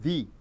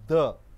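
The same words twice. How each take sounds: First: The vowel sounds like a long 'ee'. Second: The vowel sounds like a short 'uh'. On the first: It comes before a word starting with a vowel. "When uh, the noun starts with a vowel, then you are pronouncing it as the" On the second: It comes before a word starting with a consonant. "When the noun is a consonant, then you are pronouncing it as the"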